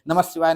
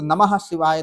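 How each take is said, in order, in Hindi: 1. यह वाक्यांश तेज़ी से बोला गया है, और ध्वनियाँ आपस में मिल जाती हैं। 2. यह वाक्यांश धीमी, सामान्य गति से बोला गया है। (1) "जल्दी बोलोगे तो क्या बोलोगे?" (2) "वैसे ऐसे बोलोगे तो"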